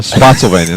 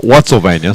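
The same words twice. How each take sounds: First: "Spotsylvania" with SPOT as the first syllable; corrected name. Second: "Whatsylvania" with WHAT as the first syllable; mistaken name. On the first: Announcer settles on the town name, corrected "Spotsylvania". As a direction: say "Spotsylvania", starting with an sp sound. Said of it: "There it is, Spotsylvania". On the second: Announcer rejects a misread town name, mistaken "Whatsylvania". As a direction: say "Whatsylvania", starting with a w sound. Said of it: "not Whatsylvania, Spotsylvania". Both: Shown as a demonstration.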